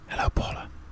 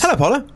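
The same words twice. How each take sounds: First: It is said in a sexy voice. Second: It is said in a plain voice.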